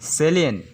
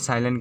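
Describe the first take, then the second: First: The first vowel sounds like 'a' in 'say'. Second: The first vowel sounds like 'eye'. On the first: The speaker calls it right. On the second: The speaker calls it wrong.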